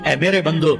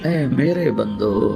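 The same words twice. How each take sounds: First: It is said in a plain, cool tone. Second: It is said in a warm, tender tone. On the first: The speaker calls it wrong. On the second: The speaker calls it right.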